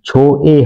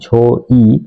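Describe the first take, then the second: First: The vowel sounds like one gliding 'weh'. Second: The vowel sounds like 'o' then 'ee'. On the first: The speaker calls it right. "ঝো এ হচ্ছে" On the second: The speaker calls it wrong. "এখানে অনেকেই উচ্চারণ করে থাকেন ঝো ই"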